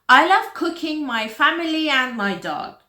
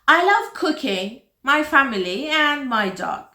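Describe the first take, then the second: First: It runs on without pauses after cooking. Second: There are pauses after cooking and family.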